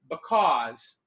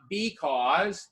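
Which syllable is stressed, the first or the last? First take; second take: last; first. First: The stress is on the last syllable. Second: The stress is on the first syllable. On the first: The speaker calls it right. "the heavy accent on the end, we say because" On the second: The speaker calls it wrong. "not because"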